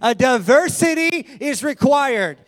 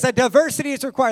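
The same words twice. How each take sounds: First: It is said forcefully, with strong conviction. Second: It is said plainly, without special emphasis.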